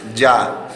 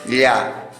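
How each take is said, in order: First: The sound is pronounced the Spanish way. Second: The sound is pronounced the Quechua way. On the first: "En español esto se pronuncia ya" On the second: "pero en quechua, escuchen bien, se pronuncia ya"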